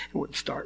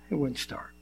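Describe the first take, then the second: First: Breathy whispered repeat. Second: Said in the usual way. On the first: Retold or imitated. Pastor whispering how the car died on him. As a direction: whisper it in disbelief.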